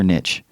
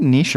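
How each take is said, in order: First: "niche" said as "nitch"; "niche" with short i and a tch ending. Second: "niche" said as "neesh"; French-style niche. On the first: Asking the cohost which way, "niche" said "nitch". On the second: Asking the cohost which way, "niche" said "neesh". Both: Shown as a demonstration. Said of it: "Is it niche or niche?".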